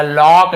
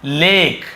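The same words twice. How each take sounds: First: लॉक with a rounded AW; लॉक said with ऑ in the middle; wrong pronunciation. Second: लेक with a long AY vowel; लेक said with a clear ए; correct pronunciation. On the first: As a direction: misread lake as लॉक, lock. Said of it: "लॉक नहीं पढ़ रहे". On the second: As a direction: say लेक as in English lake. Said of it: "हम क्या पढ़ रहे हैं". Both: Shown as a demonstration.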